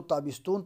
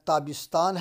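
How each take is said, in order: First: تابستون with a long "oo" in the last syllable; Iranian pronunciation. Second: Said in the usual way. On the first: Shown as a demonstration. Teacher showing the Iranian way of speaking, تابستون ending in "-toon". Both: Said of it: "تابستون تلفظ کرتے ہیں".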